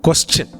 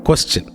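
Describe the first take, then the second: Both takes have the same delivery.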